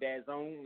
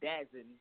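First: The second syllable sounds like 'zone'. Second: The second syllable sounds like 'zen'. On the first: This is how people actually call the name. "they kind of call it Dazone" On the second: This is how the name looks when read from its spelling. "it looks like Dazen"

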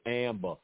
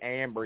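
First: The name is said in a Boston accent. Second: The name is said in a neutral accent. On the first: "he says Amber" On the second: "he don't say Amber"

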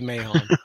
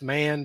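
First: The name is said as two syllables. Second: The name is said as one short syllable. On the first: This is how the spelling suggests it should sound. The speaker calls it right. "It should be Mahon" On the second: This is how the name is actually pronounced. The speaker calls it wrong. "even though it's pronounced Mann, because that just his name is pronounced wrong"

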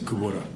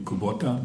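First: The name is said with Hawaiian English pronunciation. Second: The name is said with Japanese pronunciation. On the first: "in Hawaii you don't say it like that. You say Kubota" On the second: "in Japanese it would be Kubota"

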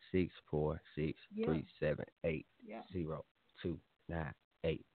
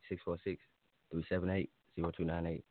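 First: The number is said slowly. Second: The number is said fast.

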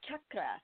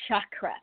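First: The word begins with a hard ch sound. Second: The word begins with a soft sh sound. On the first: The speaker calls it right. "with that hard C, like hard CH, like you would say church" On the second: The speaker calls it wrong. "You don't say chakra, even though they can be shocking"

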